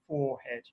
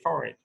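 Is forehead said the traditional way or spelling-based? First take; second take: spelling-based; traditional. First: It uses a pronunciation that follows the spelling. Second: It uses the older, traditional pronunciation. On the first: "most people now say, say forehead" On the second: "I say forehead"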